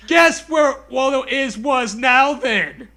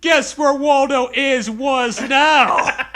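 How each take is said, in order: First: Louder shouted taunt, the last words slow; in character shout. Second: Loud, slow creepy taunt; hammed-up taunt, laughing at the end; in character. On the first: Acted. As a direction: shout the creepy line again for effect. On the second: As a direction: play the book's creepy final line. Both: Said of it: "I'm saying in character".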